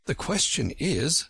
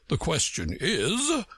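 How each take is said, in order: First: Put-on a girl's light, earnest question; light young voice, earnest; Alice's voice. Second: Slow, lofty egg's retort; pompous slow retort; Humpty Dumpty's voice. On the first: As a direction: ask it like a curious girl. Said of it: "said Alice". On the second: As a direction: throw her words back, slowly and grandly. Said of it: "said Humpty Dumpty". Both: A narrator's reading.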